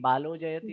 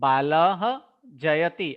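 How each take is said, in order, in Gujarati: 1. શબ્દો વિરામ વગર જોડાયેલા છે. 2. શબ્દો વિરામથી અલગ પડેલા છે. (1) "જ્યારે આ વિરામ ન હોય ત્યારે સંધિ અવશ્ય કરવાનું" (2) "અર્ધ વિરામ લીધા છે"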